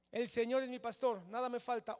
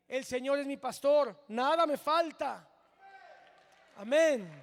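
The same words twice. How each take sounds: First: Said in the usual way. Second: Loud, rising declaration of faith; preacher proclaiming the psalm loudly to the church; proclaimed loudly. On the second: Shown as a demonstration. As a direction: call it out to the congregation with full force. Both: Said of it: "Hoy por hoy podemos decir".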